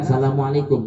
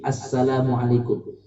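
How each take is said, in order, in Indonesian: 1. Bunyi s tunggal dan pendek. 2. Bunyi s digandakan dan ditahan. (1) "gak pakai asnya" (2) "harus pakai tasdidnya"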